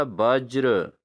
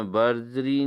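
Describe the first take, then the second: First: वज्र said as "bajr", r after j; correct pronunciation. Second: बज्री said as "barjree", ending in ee; wrong pronunciation. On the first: Teacher gives students the fix, वज्र as "bajra". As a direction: close वज्र on a "jra" cluster. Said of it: "क्या होना चाहिए दोस्तों?". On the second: Teacher shows students the error, बज्री as "barjree". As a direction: misplace an r in बज्री, "bar-jree". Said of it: "नहीं होता". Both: Shown as a demonstration.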